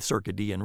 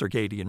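First: It is said Latin-style, as circa plus dian. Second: It is said the common everyday English way. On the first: The speaker is being fussy or pretentious. "hoity-toity people who will say circadian rhythm because that would be what you'd say in Latin" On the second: This is how almost everyone says it. "nobody says it that way except for them. It's circadian rhythms"

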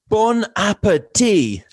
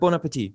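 First: It is said warmly, with gusto and intent. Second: It is said casually, without much feeling.

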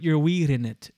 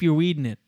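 First: The D is hard and clearly released. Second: The D is soft and runs into 'in'. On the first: The speaker calls it right. "Hard D works" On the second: The speaker calls it wrong. "That's so my is a soft D"

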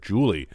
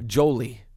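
First: The first vowel sounds like 'oo'. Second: The first vowel sounds like 'oh'.

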